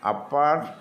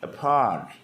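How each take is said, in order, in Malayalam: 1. രണ്ട് സിലബിളുകൾക്കും ഏകദേശം തുല്യ സ്ട്രെസ് ഉണ്ട്. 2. രണ്ടാം സിലബിൾ ആദ്യത്തേതിനേക്കാൾ ഉച്ചത്തിലാണ്. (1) "നമ്മൾ സ്ട്രെസ് ചെയ്യുന്നില്ല" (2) "ഏ താഴെ വേ മേലെ"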